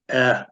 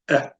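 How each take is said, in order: First: The vowel is held for its full length. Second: The vowel is cut very short and quick. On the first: The speaker calls it wrong. "it's not eh" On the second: The speaker calls it right. "It's eh, eh, like that"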